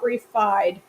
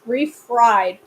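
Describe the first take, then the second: First: The second syllable is said without an r sound. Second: The second syllable is said with an r sound. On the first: The speaker calls it wrong. "not refied" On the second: The speaker calls it right. "Refried, not refied"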